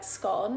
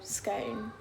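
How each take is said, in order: First: The vowel rhymes with gone. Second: The vowel rhymes with cone. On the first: "you can say gone, which would be like scone" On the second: "cone is in scone, so scone"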